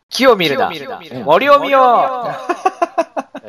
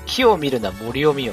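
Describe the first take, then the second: First: The voice has an echo effect applied. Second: The voice is dry with no echo.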